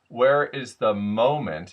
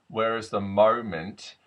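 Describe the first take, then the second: First: The long O vowel is a plain neutral vowel. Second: The long O vowel is shifted toward 'oer'. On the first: "instead of" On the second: "in South African, what I'm hearing actually is an oer"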